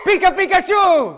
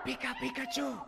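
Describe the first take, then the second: First: High shouted Pikachu cry. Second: Soft Pikachu squeak; tiny squeaky Pikachu call. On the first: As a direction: squeal it like Pikachu. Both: Acted. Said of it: "She has a very nice superhero sound".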